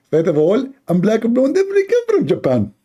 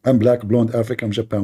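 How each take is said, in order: First: Squeaky mock lecturer; mocking apologist. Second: Said in the usual way. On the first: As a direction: play the know-it-all defender, voice pushed up. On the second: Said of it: "This is my line".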